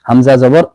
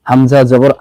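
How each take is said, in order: No difference in how they are said.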